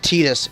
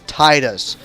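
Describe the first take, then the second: First: The vowels do not follow the long-short pattern. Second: The first vowel is long, the second short. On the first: The speaker calls it wrong. "It's not Titus" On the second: The speaker calls it right. "The first vowel has the long sound. The second vowel has the short sound"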